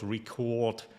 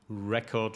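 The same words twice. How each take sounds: First: The stress is on the second syllable. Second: The stress is on the first syllable. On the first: It is used as a verb. "on the second syllable as a verb" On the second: It is used as a noun. "the stress on the first syllable as a noun"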